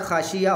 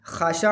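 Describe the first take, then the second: First: खाशिया with a clear y glide before the last vowel; Arabic खाशिया, ya at the end. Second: खाशा said slowly with a final Arabic ain; careful Arabic खाशा, ain at the end. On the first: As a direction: say खाशिया ending in -iya, no throat sound. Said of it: "वो या के साथ है". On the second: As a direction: draw out खाशा, closing on the throat sound ain. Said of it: "ये आइन के साथ है". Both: Shown as a demonstration.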